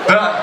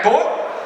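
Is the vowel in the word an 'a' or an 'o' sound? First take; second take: a; o. First: The vowel is pronounced as an 'a' sound. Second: The vowel is pronounced as an 'o' sound. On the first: The speaker calls it right. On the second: The speaker calls it wrong.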